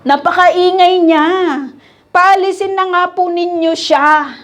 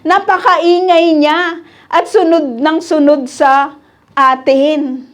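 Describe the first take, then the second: First: Annoyed disciples. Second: Reading the complaint slowly. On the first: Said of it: "Ano sabi nila ito?". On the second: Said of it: "Sabi dito". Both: Retold or imitated.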